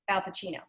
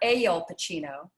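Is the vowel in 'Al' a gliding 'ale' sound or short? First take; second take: short; gliding. First: The first vowel is a short, tight sound. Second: The first vowel glides like the word ale. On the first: The speaker calls it right. "It's just al" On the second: The speaker calls it wrong. "It doesn't need to be ale"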